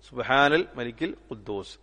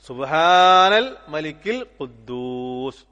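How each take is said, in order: First: It is said at normal length and volume. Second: It is drawn out and said more loudly. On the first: "രണ്ട് പ്രാവശ്യം" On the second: "കുറച്ച് നീട്ടി കുറച്ച് ശബ്ദം ഉയർത്തിയിട്ട്"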